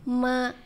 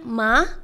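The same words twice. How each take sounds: First: The pitch stays level and flat. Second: The pitch rises like a question. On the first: "nada pertama tuh datar" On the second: "nada yang kedua tuh naik kayak nanya"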